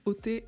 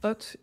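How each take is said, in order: First: The word ends with an extra 'é' vowel. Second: The word ends without an extra final vowel. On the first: The speaker calls it wrong. "il dit «hôté»" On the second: The speaker calls it right. "au lieu de dire «hôte»"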